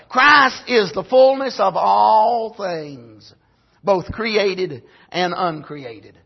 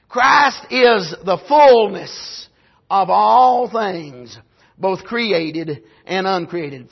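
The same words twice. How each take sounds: First: Christ is the fullness of all things said slowly, word by word, voice dropping at the end; slow title statement. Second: Christ is the fullness, then of all things, then both created and uncreated, each phrase after a pause and very slow; dictated title. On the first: Preacher announcing tonight's title, slow and deliberate. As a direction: give out the sermon title slowly and weightily. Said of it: "here's my title".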